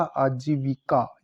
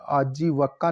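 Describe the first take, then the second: First: Slow आजीविका with clear "vi"; correct pronunciation. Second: आजीवका with a after v; wrong pronunciation. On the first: Teacher correcting the word, आजीविका slowly with vi. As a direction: say आजीविका slowly as "aa-jee-vi-kaa". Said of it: "ये शुद्ध है". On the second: Teacher showing the error, आजीवका with va. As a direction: say आजीवका as "aa-jee-va-kaa". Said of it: "नहीं होता". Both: Shown as a demonstration.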